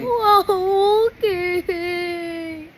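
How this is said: It is said in a sad tone.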